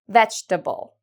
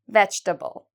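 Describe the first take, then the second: First: The word is said with three syllables. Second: The word is said with three syllables.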